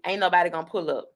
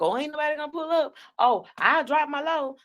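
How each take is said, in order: First: Said in the usual way. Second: Higher, fast sing-song mockery of her boast; mocking her. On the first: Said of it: "she like to say". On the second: Host mocking a rival's old boast, high and fast. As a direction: mimic her bragging in a higher, quick voice. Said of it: "You always being like".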